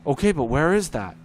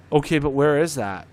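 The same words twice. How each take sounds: First: Louder, the same baffled question again; repeated clueless question. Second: Louder, a clueless dispatcher's question; mock dispatcher question. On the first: Retold or imitated. Dispatcher asks the caller the same thing again, louder and baffled. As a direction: repeat it like you're stuck on a loop. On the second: Dispatcher asks the caller where the place is, louder and baffled. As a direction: ask it like someone who won't get it.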